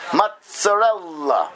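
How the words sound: It is said with an Italian pronunciation. The speaker calls it right. "but rather mozzarella"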